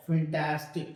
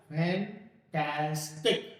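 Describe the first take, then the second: First: फैंटास्टिक as one word, first syllable reduced; quick joined-up फैंटास्टिक, stress on TAS; fast running pronunciation. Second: फैंटास्टिक in three slow pieces, FAN-TAS-TIK; very slow, separated FAN, TAAS, TIK in फैंटास्टिक; slow careful pronunciation. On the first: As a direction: run फैंटास्टिक together without breaks. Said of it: "मैं थोड़ा सा fast बोल रहा हूँ". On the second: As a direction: break फैंटास्टिक apart and stretch each syllable. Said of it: "मैंने बोला क्या?". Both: Shown as a demonstration.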